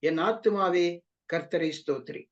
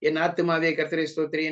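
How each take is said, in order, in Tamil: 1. சொற்றொடர் அழுத்தமான சொற்களுடன் மெதுவாகச் சொல்லப்படுகிறது. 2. சொற்றொடர் இடைவெளி இல்லாமல் வேகமாக கடகடவென்று சொல்லப்படுகிறது. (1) "நிறுத்தி நிதானமாக வார்த்தைகளை அழுத்தம் கொடுத்து சொல்லுவார்கள்" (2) "கடகடகடன்னு சொல்லி முடிச்சிடுறோம்"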